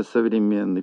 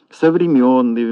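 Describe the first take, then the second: First: Said in the usual way. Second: «совремённый» with stressed yo, louder; wrong yo vowel stressed in «совремённый»; mispronounced СОВРЕМЁННЫЙ. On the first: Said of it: "вместо". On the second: Shown as a demonstration. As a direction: say «совремённый» with yo in the third syllable. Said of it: "Всё это ошибки".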